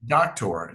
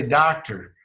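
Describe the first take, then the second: First: Doctor with a crisp t and a clipped ending, in a light mock British voice; mock-posh British doctor, t pronounced crisply; imitating British doctor. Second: Southern doctor, open vowels and a clear final r; Mississippi doctor. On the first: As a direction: copy the interviewer's British doctor. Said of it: "You say". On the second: Shown as a demonstration. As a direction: say doctor the Mississippi way, r kept at the end. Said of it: "down in Mississippi, we say".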